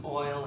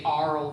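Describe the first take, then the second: First: Said in the usual way. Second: "arl" with ar in place of oi; regional pronunciation. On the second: Shown as a demonstration. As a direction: say "arl" as a dialect form of oil. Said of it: "might say "arl" versus "oil".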